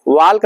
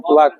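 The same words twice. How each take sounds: First: वॉक said wrongly with the L sounded, "walk"; wrong pronunciation. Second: वॉक said "wok" with the L silent; correct pronunciation. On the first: Teacher showing students the wrong way, L pronounced. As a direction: sound the L in वॉक on purpose as the mistake. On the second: Teacher showing students the right way, silent L. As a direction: drop the L in वॉक, just "wok". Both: Shown as a demonstration. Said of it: "एल silent".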